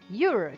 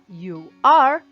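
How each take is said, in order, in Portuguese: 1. As palavras são unidas em uma sílaba curta. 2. Duas palavras separadas são ditas por completo. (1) "que é muito mais rápido" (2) "Ao invés de falar you are"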